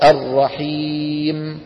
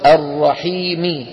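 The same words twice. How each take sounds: First: The final m has a longer nasal hum. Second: The final m has a short nasal hum. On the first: The reciter stops on this word. "فإن وقفت الرحيم تصير أطول بتكة" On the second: The word is joined to the next word. "إذا وصلت الرحيم فهي هذه"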